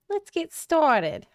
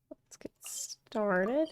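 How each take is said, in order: First: High, drawn-out goblin voice. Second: Slow, breathy near-whisper; hushed. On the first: Streamer trying out a practised character on viewers, goblin voice. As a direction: put on a slow, high-pitched goblin. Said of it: "I've been working on my goblin voice". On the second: Streamer warming up to start the quest, hushed. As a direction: draw it out very softly, almost voiceless. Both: Pretend.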